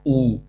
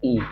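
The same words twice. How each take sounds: First: ई drawn out as a long ee with a bit of stress. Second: ई said short and light as a brief short i; a quick light short-i ई. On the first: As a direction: stretch the ई and press on it. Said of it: "थोड़ा सा जोर देना है". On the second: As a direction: clip the ई quickly, barely held. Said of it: "देखो इन दोनों का pronunciation कैसे होता है". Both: Shown as a demonstration.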